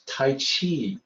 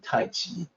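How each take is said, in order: First: The second word begins with a 'ch' sound. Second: The second word begins with a 'j' sound. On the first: This is the common way people say it. The speaker calls it wrong. "everybody says Tai Chi" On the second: This is how it was meant to be said. The speaker calls it right. "but it's actually Tai Chi"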